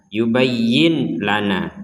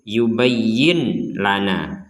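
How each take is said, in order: First: The n is pronounced clearly before the l. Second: The n is pronounced clearly before the l.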